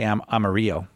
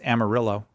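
First: Amarillo is said with Spanish-style sounds. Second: Amarillo is said with English, Texan-style sounds. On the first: This is how it would be said in Spanish. The speaker calls it wrong. "You don't say Amarillo" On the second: This is how locals in Texas say it. The speaker calls it right. "I think that's how they pronounce it in Texas"

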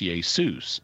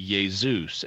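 First: The middle consonant is a hissing S sound. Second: The middle consonant is a buzzing Z sound. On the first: This is the name as it is in Greek. The speaker calls it right. "it's Jesus" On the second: This carries an English habit into Greek. The speaker calls it wrong. "pronouncing it with an intervocalic Z sound that they want to say Jesus"

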